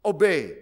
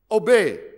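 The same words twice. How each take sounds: First: Lower, dutiful echo; the bride echoing the pastor, lower and compliant; obedient bride repeating. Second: Loud, insistent prompt; the pastor demanding the vow word, firm and loud. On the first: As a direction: repeat the word after the pastor. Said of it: "And the wife must repeat". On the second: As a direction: make the bride say it. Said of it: "the pastor will make sure that he says". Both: Acted.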